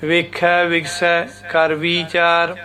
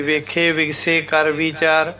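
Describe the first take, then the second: First: ਵੇਖੈ and ਵਿਗਸੈ with open ai endings, slow; slow careful recitation, ai endings; correct pronunciation. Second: ਵੇਖੇ and ਵਿਗਸੇ said with a plain e ending; the common wrong reading, e endings; wrong pronunciation. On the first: Teacher reciting the correct form slowly with ai endings. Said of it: "ਇਸ ਤਰ੍ਹਾਂ ਬੋਲਣਾ". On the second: Teacher demonstrating the wrong e-ending pronunciation. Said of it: "ਇਹ ਗਲਤ ਹੈ". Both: Shown as a demonstration.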